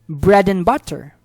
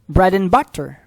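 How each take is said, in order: Both takes have the same delivery.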